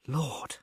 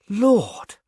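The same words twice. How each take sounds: First: A soft, stunned first Lord; shocked murmur. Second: Higher, stronger second Lord; shocked exclaim. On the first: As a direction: breathe it out in shock. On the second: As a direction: let the shock break through. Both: A narrator's reading. Shocked at poisoning news.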